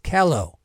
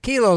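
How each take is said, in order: First: The first vowel matches the vowel in yellow. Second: The first vowel differs from the vowel in yellow. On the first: The speaker calls it right. "like yellow" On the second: The speaker calls it wrong. "it's not Kilo Land"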